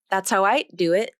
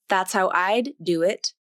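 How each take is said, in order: First: The D in "I'd" is devoiced, like T. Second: The D in "I'd" is fully released. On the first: "the D sound will be devoiced, which will make it sound more like a T consonant" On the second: "First, the D sound will be released"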